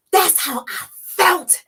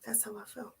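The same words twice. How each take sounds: First: High, slow crying voice. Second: Far softer, almost breathed; barely audible. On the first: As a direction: let the pain break through, slowly. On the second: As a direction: let it fade to nothing. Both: Real, not acted.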